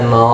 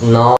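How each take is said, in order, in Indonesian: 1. Vokal setelah n terdengar seperti 'o'. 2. Vokal setelah n terdengar seperti 'o'.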